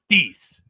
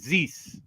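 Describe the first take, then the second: First: The opening sound is said like a d. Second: The opening sound is said like a z. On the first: A Quebec French speaker is saying the word. "Quebec French is a much harder sound. More like a D" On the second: A speaker from France is saying the word. "T H at the beginning would be pronounced like a Z"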